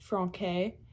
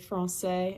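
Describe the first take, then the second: First: The middle consonant is a K sound. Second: The middle consonant is an S sound. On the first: The speaker calls it wrong. "and not franquais" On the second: The speaker calls it right. "that's why you say français"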